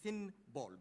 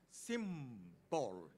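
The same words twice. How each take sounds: First: The nasal before b is n. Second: The nasal before b is m. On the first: This is the underlying form before assimilation. "it should be symbol" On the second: This is the form changed by assimilation. "it becomes symbol"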